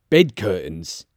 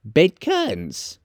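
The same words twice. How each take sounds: First: Low, understated disbelief; name it low, taken aback; low-voiced old dealer; surprised old Joe. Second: High, slow, gleeful confirmation; high-pitched, slow woman's voice; amused charwoman. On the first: Joe puzzles over the cloth. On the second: Acted. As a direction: draw it out high, relishing it. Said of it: "laughing and leaning forward".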